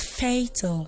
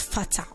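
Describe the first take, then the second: First: The first vowel is a long A sound. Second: The first vowel is a short A sound. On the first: The speaker calls it right. "supposed to be pronounced as fatal" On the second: The speaker calls it wrong. "and not fatal"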